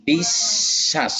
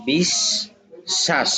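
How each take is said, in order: First: বিশ্বাস said slowly as বিশ্-শাস with the শ held double; doubled sh. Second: বিশ্বাস very slow and higher, শ held long as বিশ্-শাস; doubled sh, drawn out. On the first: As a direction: stretch বিশ্বাস, doubling the শ sound. (বিশ্বাস, শ দুইবার টেনে ধীরে উচ্চারণ) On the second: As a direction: draw out বিশ্বাস, leaning on a doubled শ. (বিশ্বাস, শ দ্বিগুণ করে খুব ধীরে উচ্চারণ) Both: Shown as a demonstration. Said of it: "শকে দুইবার উচ্চারণ করাইছে".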